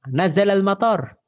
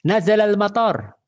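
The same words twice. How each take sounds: No difference in how they are said.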